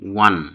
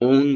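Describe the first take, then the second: First: The word begins with a 'w' sound. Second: The word begins directly with an 'o' vowel. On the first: The speaker calls it right. "এর সঠিক উচ্চারণ হচ্ছে ওয়ান" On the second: The speaker calls it wrong. "আমরা এর first tense করার সময় ওন বলে থাকি"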